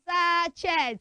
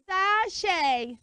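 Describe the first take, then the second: First: The final t is sounded. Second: The final t is silent. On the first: The speaker calls it wrong. "Never say sachets" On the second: The speaker calls it right. "You should say sachet"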